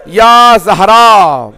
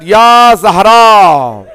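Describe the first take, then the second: First: A slow, loud wail with the "Ya" held long and falling; repeated grieving call of "Ya Zahra", louder; crying out loudly again. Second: A slow, loud wailing call stretched long on "Ya"; drawn-out grieving cry of "Ya Zahra", louder; crying out loudly. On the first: Ali calling his wife's name in grief, wailing. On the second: Ali mourning Fatima at her body, wailing cry. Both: A narrator's reading. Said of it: "started crying loudly".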